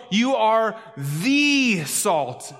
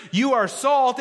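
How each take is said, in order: First: "the" said as a long "thee", slow and set apart; stress on THE. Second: Said in the usual way. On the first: Shown as a demonstration. Preacher correcting "you are salt", long stressed "thee" for "the". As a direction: stretch "the" into an emphatic "thee". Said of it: "and on the word". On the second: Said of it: "it's not just".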